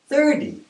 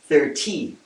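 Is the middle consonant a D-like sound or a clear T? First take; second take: D-like; clear T. First: The middle consonant is a soft D-like sound. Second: The middle consonant is a clear T sound. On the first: "North Americans tend to pronounce thirty" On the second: "I'm going to write a D as opposed to thirty"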